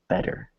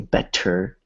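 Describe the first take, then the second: First: The middle T is a soft, weak tap. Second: The middle T is a hard, clear stop. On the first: The speaker calls it right. "It's a it's a soft T or a weak T" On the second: The speaker calls it wrong. "we don't say better, like a hard T"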